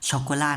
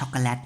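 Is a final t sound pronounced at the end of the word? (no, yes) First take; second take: no; yes. First: The word ends in a vowel without a t. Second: The word ends with a t sound. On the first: The speaker calls it right. "ช็อกโกลานะครับ" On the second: The speaker calls it wrong. "ไม่ได้อ่านออกเสียงว่าช็อกโกแลตนะครับตัวเตข้างหลังเราไม่ออกเสียง"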